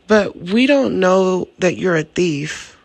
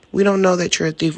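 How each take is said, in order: First: Slow, pointed mock innocence; drawn out with a knowing pause on don't; slow deliberate. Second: Fast tossed-off repeat; quick throwaway. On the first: A sly aside to the thief, said slowly and pointed. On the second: Retold or imitated. The same jab at the thief, rushed out fast. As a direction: rattle it off quickly and lightly. Mock innocent quote, said twice.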